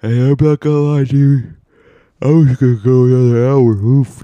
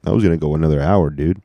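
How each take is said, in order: First: Loud, high-pitched exclamation; loud high outburst. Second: Said in the usual way. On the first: Real, not acted. Confessing to listeners about nearly napping longer, high loud outburst. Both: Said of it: "you heard that, right?".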